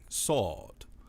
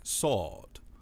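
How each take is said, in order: First: The R is dropped, leaving an open aw vowel. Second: The same.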